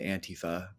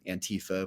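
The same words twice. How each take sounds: First: The stress is not on the second syllable. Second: The stress is on the second syllable. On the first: This is how it is said in Europe. "over there they pronounce it Antifa" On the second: This is how it is said in America. "in the American twang and our accent, it's become Antifa"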